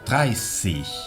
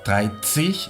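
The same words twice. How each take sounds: First: The middle consonant is a plain s sound. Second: The middle consonant is a ts sound. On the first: The speaker calls it right. "se pronuncia como si fuese una doble S" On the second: The speaker calls it wrong. "No es dreißig"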